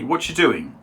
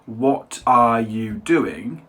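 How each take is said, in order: First: The words are blended together and shortened. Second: Every word is said fully and separately.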